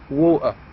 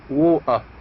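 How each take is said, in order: First: It is said in a Cockney accent. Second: The same.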